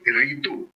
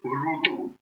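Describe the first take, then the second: First: The first syllable is said with an 'i' vowel. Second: The first syllable is said with a 'u' vowel. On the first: The speaker calls it wrong. "most of them I don't know why they are pronouncing ritu" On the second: The speaker calls it right. "So it is rutu"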